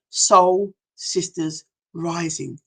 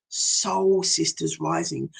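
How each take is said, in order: First: Slow, deliberate name of the circle; proud slow naming of the programme; slow title announce. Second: Softer, slower repeat of the name; a soft hushed echo of the programme name. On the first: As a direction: lay the title out word by word. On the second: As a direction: echo the title back, hushed. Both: Shown as a demonstration.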